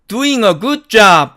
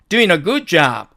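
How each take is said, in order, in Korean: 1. doing은 또렷한 ng 소리로 끝나요. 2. doing은 그냥 n 소리로 끝나요. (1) "원래는 이게 맞는데" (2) "발음을 부드럽게 하기 위해서"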